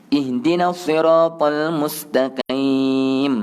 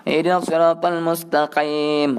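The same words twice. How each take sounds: First: Slow recitation with a moderate q in "mustaqim"; measured, drawn-out "mustaqim" with a restrained qaf; slight qaf. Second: Overforced throat sound on "mustaqim"; too strong qaf. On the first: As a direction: chant it, giving "mustaqim" just a little depth. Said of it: "Jadi, sikit sahaja". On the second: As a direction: recite with "mustaqim" exaggerated to an ugly, heavy "qaim". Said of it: "kuat sangat pula". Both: Shown as a demonstration.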